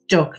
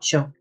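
First: It is said with an old Birmingham accent. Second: It is said with a standard accent. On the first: "that very old-fashioned Birmingham accent" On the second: "not Chuck"

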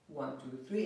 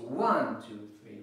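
First: All three counts are said with equal weight. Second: The first count is said with strong emphasis. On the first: The speaker calls it wrong. "It's not" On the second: The speaker calls it right. "I'm actually emphasizing the way I say it"

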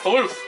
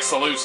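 First: The word begins with a lisped th sound. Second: The word begins with a clear s sound. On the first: The name is said with a lisp. The speaker calls it wrong. "it sounds like the person's got a lisp" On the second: The name is said as intended. The speaker calls it right. "it's supposed to be like Saluth"

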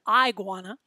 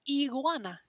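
First: The first vowel sounds like 'eye'. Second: The first vowel sounds like 'ee'. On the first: The speaker calls it wrong. "Not an iguana" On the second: The speaker calls it right. "We call it an iguana"

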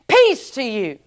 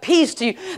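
First: It is said with weight and force. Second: It is said casually and offhand.

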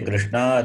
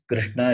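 First: The final vowel is held long. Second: The final vowel is kept short. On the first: It names a woman, Draupadi. "If you say Krishna, it is Draupadi" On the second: It names the god Krishna. "If it is Krishna, it is Lord Krishna"

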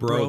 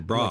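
First: The vowel sounds like 'oh'. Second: The vowel sounds like 'ah'. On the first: "They don't say bro" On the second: "They say bra"

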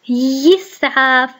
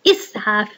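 First: The word begins with a y sound. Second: The word begins with a glottal stop. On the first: The speaker calls it wrong. "أنا لم أقل يسعاف" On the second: The speaker calls it right. "أنا قلت إسعاف إي إي، همزة مكسورة"

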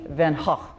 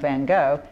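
First: The name is said with a Dutch pronunciation. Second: The name is said with an English pronunciation. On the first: The speaker calls it right. "The correct pronunciation of his last name would be Van Gogh" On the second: The speaker calls it wrong. "forgive me if we call him Van Gogh. ... So we have certainly anglicized"

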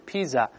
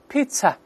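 First: The middle consonant is a z sound. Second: The middle consonant is a ts sound. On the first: The speaker calls it wrong. "不是pizza" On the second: The speaker calls it right. "而是pizza"

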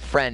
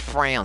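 First: The word is said in a plain accent. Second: The word is said in a put-on foreign accent. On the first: The speaker calls it wrong. "It's not friend" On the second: The speaker calls it right. "It's frand"

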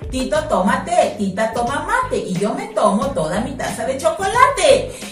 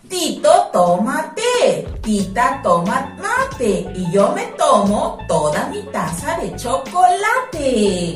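First: It is said at a fast pace. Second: It is said at a slow pace. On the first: "ahorita lo voy a hacer más rápido" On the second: "primero lo voy a hacer un poco lento"

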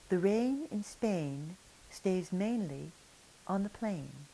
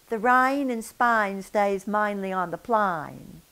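First: The vowels sound polished and standard. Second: The vowels sound broad and nonstandard. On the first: The speaker could pass as upper class. The speaker calls it right. "such a beautiful accent" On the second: The speaker is uneducated and lower class. The speaker calls it wrong. "substandard English"

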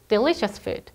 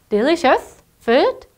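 First: The pitch falls at the end. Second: The pitch rises at the end. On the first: The speaker calls it right. "마지막은 내려주세요" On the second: The speaker calls it wrong. "아니고"

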